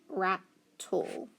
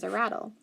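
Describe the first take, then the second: First: "Rat, tool" as two separate syllables, ending like the word tool; split syllables. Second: Said in the usual way. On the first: Shown as a demonstration. Teacher reading a coded word, "Rat, tool" syllable by syllable. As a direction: break rattle into "Rat" and "tool". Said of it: "so I don't read it". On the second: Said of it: "that's what the picture is".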